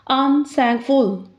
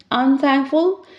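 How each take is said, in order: First: "Unthankful" slowly in separate beats, un, thank, ful; split into parts. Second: Said in the usual way. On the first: Shown as a demonstration. Teacher demonstrating syllables, "Unthankful" slowly split un-thank-ful. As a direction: break "Unthankful" slowly at prefix and suffix. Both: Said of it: "let's split it".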